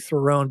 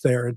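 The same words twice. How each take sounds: First: The name does not rhyme with heron. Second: The name rhymes with heron. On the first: This is the form an article gave as correct. "it's actually Theron" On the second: This is the form the speaker uses with people. "but I tell people it's Theron"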